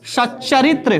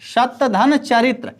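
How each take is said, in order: First: A doubled ch sound replaces the t. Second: A t sound comes before the ch sound.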